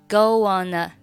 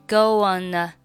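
Both takes have the same delivery.

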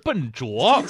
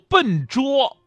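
First: The second syllable has a rising tone. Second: The second syllable has a high level tone. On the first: The speaker calls it wrong. "不是笨拙" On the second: The speaker calls it right. "还有笨拙"

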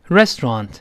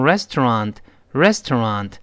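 First: The syllables are run together and reduced. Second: Each syllable is said separately and fully. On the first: "英国人会读成restaurant" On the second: "美国人呢喜欢把音节分开读，所以读成restaurant"

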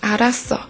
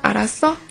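First: It is a statement, falling at the end. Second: It is a question, rising at the end.

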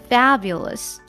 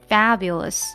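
Both takes have the same delivery.

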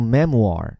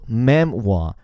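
First: It ends with an American r sound. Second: It ends without an r sound.

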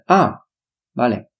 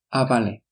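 First: It is said with a pause between the words. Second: It is said quickly with no pause between words. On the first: "不是啊vale，可以是可以的" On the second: "比较快，之间没有一个停顿"

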